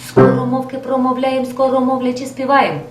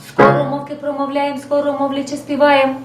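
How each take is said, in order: The two takes are said the same way.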